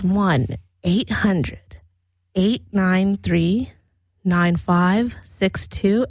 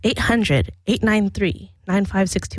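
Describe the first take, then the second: First: The number is said slowly. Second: The number is said fast.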